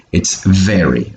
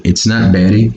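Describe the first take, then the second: First: "very" with a clear buzzed V; correct V sound. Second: "very" said with a B, like "berry"; mistaken B sound. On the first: Teacher giving the right version, clear V pronunciation. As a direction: put teeth to lip for the V in "very". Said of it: "pronounce this word right". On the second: Teacher showing learners' common error, B in place of V. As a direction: swap the V of "very" for a B. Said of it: "problem making this sound over here". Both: Shown as a demonstration.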